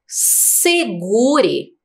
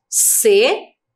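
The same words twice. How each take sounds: First: Said in the usual way. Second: "Segure" split as SE, GU, RE with pauses; syllable by syllable. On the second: Shown as a demonstration. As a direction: break "Segure" into three separate beats. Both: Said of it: "Três sílabas".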